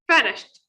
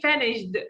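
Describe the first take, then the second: First: The ending is said as a short t sound. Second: The ending is said as an extra 'ed' syllable. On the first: The speaker calls it right. "No, it's finished. ... we add t sound" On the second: The speaker calls it wrong. "Don't say finished"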